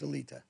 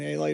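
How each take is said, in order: First: The name ends with the sound 'leeta'. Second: The name ends with the sound 'light'. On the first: This is the original form of the name. The speaker calls it right. "the real pronunciation is Alita" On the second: This is the simplified form others adopted. The speaker calls it wrong. "everybody said A-Light because they couldn't pronounce it"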